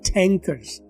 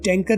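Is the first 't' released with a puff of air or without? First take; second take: with; without. First: The first 't' has a strong puff of air. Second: The first 't' has no puff of air. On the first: The speaker calls it right. "ٹی blast ہو رہی ہے" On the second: The speaker calls it wrong. "ٹینکر نہیں"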